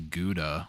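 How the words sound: It is said with an American pronunciation. "I say Gouda"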